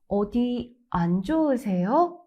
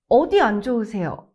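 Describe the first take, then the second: First: A short pause follows the first word, then smooth. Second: The first word carries strong stress. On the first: The speaker shows care for the listener. The speaker calls it right. "Small pause after 어디, light stress on 안, then say 안 좋으세요 smoothly in one breath" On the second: It sounds like a doctor questioning a patient. The speaker calls it wrong. "If you stress 어디"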